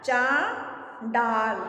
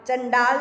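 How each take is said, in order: First: The first syllable has a long aa vowel. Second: The first syllable has a short a vowel. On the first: The speaker calls it right. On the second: The speaker calls it wrong.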